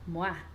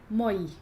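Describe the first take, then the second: First: The vowels glide together as 'wah'. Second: The vowels are said separately as 'oy'. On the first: The speaker calls it right. "Eu vou ler moá" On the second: The speaker calls it wrong. "eu não vou ler moi"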